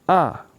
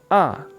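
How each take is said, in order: First: The pitch drops sharply from high to low. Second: The same.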